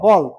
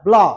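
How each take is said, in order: First: A vowel is inserted between b and l. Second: The b and l are blended without a vowel. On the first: The speaker calls it wrong. "আমরা বলি বল বল, তা হবে না" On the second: The speaker calls it right.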